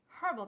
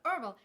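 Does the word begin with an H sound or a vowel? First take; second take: H sound; vowel. First: The word starts with an audible H sound. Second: The word starts with a vowel, no H sound. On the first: The speaker calls it right. "because there's an H in there, so freaking pronounce it" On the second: The speaker calls it wrong. "not herbal"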